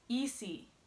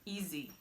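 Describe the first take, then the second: First: The middle consonant is a hissing S sound. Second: The middle consonant is a buzzing Z sound. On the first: The speaker calls it wrong. "that sounds like I'm saying it with an accent" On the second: The speaker calls it right. "it sounds like you're saying easy with a Z"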